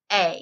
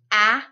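First: A as long "ay", as in braid. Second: A as short "aa", as in brad. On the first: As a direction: say a as a full "ay" vowel. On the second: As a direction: say a as the open "aa" vowel. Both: Shown as a demonstration. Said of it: "changing a short sound to a long sound".

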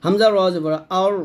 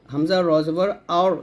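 No difference in how they are said.

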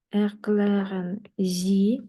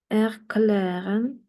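First: Slow, drawn-out German with a rise on Sie; slow model phrase. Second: Slow model word. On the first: Teacher repeating the request slowly for learners. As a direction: lay it out slowly for the class. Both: Shown as a demonstration. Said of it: "teacher models slowly".

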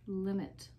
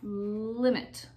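First: Said in the usual way. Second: Long held L gliding into limit; "limit" blended as one word with a drawn-out L; blended syllables. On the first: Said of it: "it makes the word". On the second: Shown as a demonstration. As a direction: stretch the first sound of "limit". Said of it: "Together, it makes the word".

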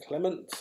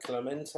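First: "Clement" said the English way, two syllables, ending on a t; name pronounced as Clement. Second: "Clemente" with an added final e sound, three syllables; name pronounced as Clemente. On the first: Raffle host trying out the winner's surname, first as Clement. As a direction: say "Clement" with no vowel after the final t. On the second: Raffle host offering the surname's alternative, Clemente with the final vowel. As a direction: say "Clemente" ending in an open eh after the t. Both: Shown as a demonstration. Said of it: "or is that Clemente?".

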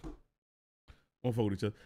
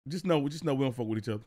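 First: Low, slow muttered warning to a friend; slow low muttered repeat. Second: Said in the usual way. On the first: Real, not acted. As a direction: drop it lower and slower, muttering.

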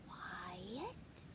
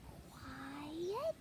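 First: Unvoiced hushing whisper, lower. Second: Softly voiced hush rising at the end. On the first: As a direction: breathe it like sneaking past sleepers. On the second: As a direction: ease the word out, barely voiced. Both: Tiptoeing inside in the dark.

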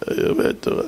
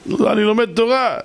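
First: Whispered repeat of אני לומד תורה; scared whisper. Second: Said in the usual way. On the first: Retold or imitated. The crying driver repeats to the rabbi, whispering. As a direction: breathe the words out, barely voiced.

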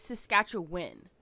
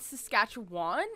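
First: SASKATCHEWAN with a short "win" at the end, slow. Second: SASKATCHEWAN with a full "wahn" at the end; Saskatchewan ending in WAN. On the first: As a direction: say Saskatchewan slowly, last syllable like "win". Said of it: "it's Saskatchewan". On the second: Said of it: "it is not Saskatchewan". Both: Shown as a demonstration.

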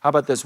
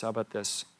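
First: Said in the usual way. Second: "How about this?" dropped to a soft, hushed aside; soft repeat. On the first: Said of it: "preacher repeats question, louder take". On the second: Shown as a demonstration. Preacher re-asks his congregation, softly and hushed. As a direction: ask "How about this?" again quietly, almost to himself. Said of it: "same question repeated much softer".

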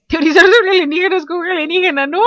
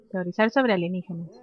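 First: Higher, louder gleeful exclaiming; amused excitement. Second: Said in the usual way. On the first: Real, not acted. Gamer relishes theorizing about aliens with an alien, gleeful. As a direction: blurt it out, delighted by the absurdity. Then delights in the idea.

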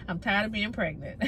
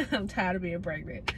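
First: Said in the usual way. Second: Said again through a laugh; tired, half-laughing repeat. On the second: Real, not acted. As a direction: laugh the words out as you repeat them.

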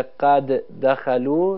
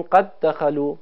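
First: "قد دخلوا" with the first د released, then a second د; careful "قد دخلوا", both د sounds kept apart; two separate dals. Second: "قد دخلوا" merged as qad-dakhalu, one long د; one doubled dal. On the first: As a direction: say "قد دخلوا" unmerged, each د on its own. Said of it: "به جای اینکه دو تا دال تلفظ کنیم". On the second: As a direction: join "قد دخلوا" with a single held, geminated د. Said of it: "یک دال مشدد تلفظ کنیم". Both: Shown as a demonstration.

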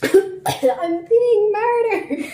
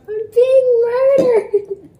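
First: High, slow mock wail; drawn-out melodramatic cry; dramatic wail. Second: High, slow mock wail; dramatic wail. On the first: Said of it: "And you were like". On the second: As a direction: wail it like a hammy victim. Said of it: "If you remember that video".

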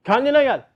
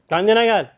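First: "Kendine gel" called higher and louder, stress on "kendine"; stronger wake-up call. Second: "Kendine gel" called out louder; wake-up call. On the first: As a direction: push "Kendine gel" up harder, like a second shake. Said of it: "Ne oldu?". ("Kendine gel" daha tiz ve güçlü seslenilir) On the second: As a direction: say "Kendine gel" like a shake on the shoulder. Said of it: "Korona bir geldi böyle". ("Kendine gel" yüksek sesle seslenilir) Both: Retold or imitated.

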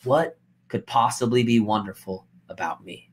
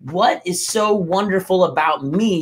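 First: Defeated, quiet self-pity; self-doubting. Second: Open, upbeat asking; light, confident wondering; hopeful self-question. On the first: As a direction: lower and softer, deflated. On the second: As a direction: ask it with real curiosity about yourself. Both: Shown as a demonstration. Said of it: "do you hear the difference in my expression".

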